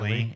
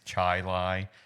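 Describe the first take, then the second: First: The first syllable sounds like 'chill'. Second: The first syllable sounds like 'chai'. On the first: This is the common outsider pronunciation. The speaker calls it wrong. "Everybody constantly will pronounce it" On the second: This is the local pronunciation. The speaker calls it right. "and it's Chai Lai, even though it's spelled Chili"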